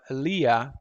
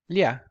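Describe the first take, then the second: First: The syllable is said at a slow pace. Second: The syllable is said at a fast pace. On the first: "you just think of the pronunciation of lia" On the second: "and then you do it very fast"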